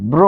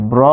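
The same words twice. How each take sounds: First: ব্র turned into "bro"; closed o. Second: ব্র as written, "braw"; open vowel. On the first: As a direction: round the vowel of ব্র to o. (ব্র হবে ব্রো) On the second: (ব্র, খোলা অ দিয়ে) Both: Shown as a demonstration. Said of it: "ব্র হয়ে যাচ্ছে ব্র".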